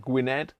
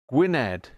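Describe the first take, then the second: First: Gwynedd said as GWIN-edd with a hard G and a questioning rise. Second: Gwynedd said as WIN-edd, dropping the G, falling; Gwynedd without the G. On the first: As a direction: try Gwynedd again, hard G, asking. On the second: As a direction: say Gwynedd starting with a W sound. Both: Shown as a demonstration. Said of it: "I don't know if that's how you pronounce it".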